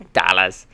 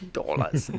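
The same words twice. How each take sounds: First: A weak Australian accent on "Dollars", louder with a flat "a"; failed Australian accent. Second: Said in the usual way. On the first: Shown as a demonstration. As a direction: try "Dollars" as an Australian would say it and miss. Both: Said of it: "that didn't sound Australian at all".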